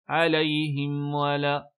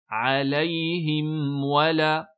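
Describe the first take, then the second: First: The m and w blur together. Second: The m is clear, then a rounded w. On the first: The speaker calls it wrong. "Attention à ne pas faire alayhim wala" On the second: The speaker calls it right. "bien mettre dammu shafatayn sur le waw et bien faire idharul mim"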